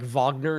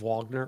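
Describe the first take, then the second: First: The name begins with a V sound. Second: The name begins with a W sound. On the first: The name is said the German way. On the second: The name is said the English way.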